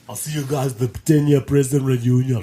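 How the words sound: It is said in an imitated character voice. The speaker calls it right.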